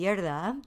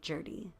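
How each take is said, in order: First: The name is said with a Norwegian pronunciation. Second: The name is said with an English pronunciation. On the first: This is how it is said in Norway. "in Norway, it would be" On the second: This is how the family says it in English. "in English, we kind of just say"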